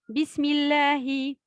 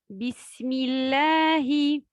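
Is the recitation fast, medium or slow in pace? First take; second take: fast; slow. First: It is recited at a fast pace. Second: It is recited at a slow pace. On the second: "At-Tahqiq, on lit lentement"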